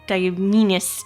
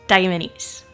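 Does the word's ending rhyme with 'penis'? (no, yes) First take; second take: yes; no. First: The ending rhymes with the word penis. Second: The ending does not rhyme with penis. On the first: The speaker calls it wrong. "you're thinking Diaminus because penis" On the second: The speaker calls it right. "No, it's Diamines"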